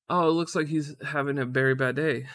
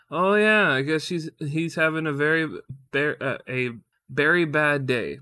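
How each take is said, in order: First: Said in the usual way. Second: Stumbled quote. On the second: Retold or imitated. Husband imitating wife's berry pun, botched and halting. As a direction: fumble the pun line, restarting mid-sentence. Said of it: "Oh, I already fucked it up".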